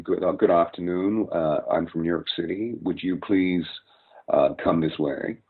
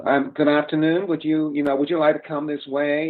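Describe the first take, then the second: First: Put-on older American voice, New York, unforced and open; polite older New York American greeting; older New York speech. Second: Higher, nasal modern American accent. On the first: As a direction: show the older New York sound, less nasal. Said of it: "whereas you would hear". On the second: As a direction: squeeze it up into the nose like today's Americans. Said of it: "it's getting really, really nasal". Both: Shown as a demonstration.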